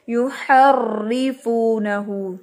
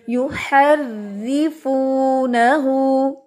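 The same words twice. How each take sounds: First: युहर्रिफूनहू with a thick, full-mouthed र्र; heavy r mistake. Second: युहर्रिफूनहू very slow, light thin र्र; thin r recitation. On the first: Teacher shows students the wrong heavy र्र. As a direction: show the wrong heavy reading. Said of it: "हम इसको ऐसे नहीं पढ़ेंगे". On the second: Teacher models the correct thin reading for students. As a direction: recite it with a fine r. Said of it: "अब इसको हम बारीक पढ़ेंगे". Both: Shown as a demonstration.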